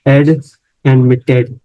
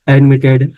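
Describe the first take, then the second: First: एड set apart by a pause, then एडमिटेड; syllable by syllable. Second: Said in the usual way. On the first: Shown as a demonstration. Teacher showing the syllables in admitted, syllable by syllable. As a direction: break off एड first, then give एडमिटेड carefully. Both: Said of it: "उसमें दो syllable बन रहे थे".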